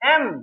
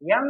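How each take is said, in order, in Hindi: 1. अक्षर के नाम की शुरुआत साधारण स्वर से होती है। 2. अक्षर के नाम की शुरुआत 'y' ध्वनि से होती है।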